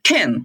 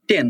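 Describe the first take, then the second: First: It is spoken with a native English accent. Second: It is spoken with a Bengali-style accent. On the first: The speaker calls it right. "But এটা হবে টেন" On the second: The speaker calls it wrong. "Mainly আমরা টেন"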